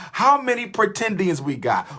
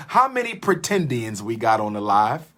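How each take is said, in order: First: Higher, calling out to the audience. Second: Said in the usual way. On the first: Real, not acted. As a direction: call it out to the whole live chat. Repeats question to livestream audience.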